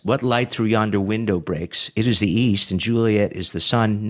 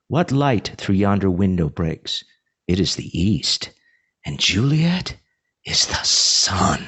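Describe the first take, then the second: First: It is said plainly, without contrast. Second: It is said with marked contrast and emphasis.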